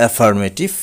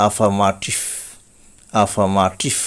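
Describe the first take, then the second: First: Affirmative as "e-far-MAY-tif", rising; common mispronunciation. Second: Affirmative as "uh-FA-ma-tif", no r; correct pronunciation. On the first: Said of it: "affirmative বলে থাকি". (affirmative-এর প্রচলিত উচ্চারণ "এফারমেটিভ") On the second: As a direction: model affirmative slowly with open a sounds. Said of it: "কিন্তু সঠিক উচ্চারণ হবে". (affirmative-এর সঠিক উচ্চারণ "আফামাটিভ") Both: Shown as a demonstration.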